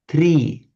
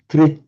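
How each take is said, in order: First: The vowel is a long ee sound. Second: The vowel is a long syllabic r sound. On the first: "tree with a long e sound" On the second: "a tr with a long r sound"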